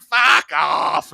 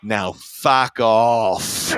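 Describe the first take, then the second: First: Irritated mock shout. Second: Very slow, drawn-out put-on dismissal with a slight smile. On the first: Rock star swats away a needling onlooker, irritated mock shout. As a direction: shout it as a brush-off, imitating an annoyed star. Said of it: "And he's like". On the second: Rock star dismisses adoring fan with slight smile, slow amused drawl. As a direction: stretch each word, amused beneath the insult. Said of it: "with this ever so slight smile".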